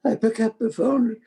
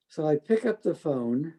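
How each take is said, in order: First: "I pick up the phone" voice rising high and tearful; fighting back real tears; choked up. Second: Said in the usual way. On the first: Real, not acted. Telling the interviewer about calling his father, near tears. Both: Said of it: "I'm gonna cry over this".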